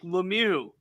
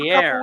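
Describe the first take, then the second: First: The surname sounds like Lemieux. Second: The surname sounds like Veillere. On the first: This is the father's version of the name. "His own father has said it's like Lemieux" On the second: This is the son's version of the name.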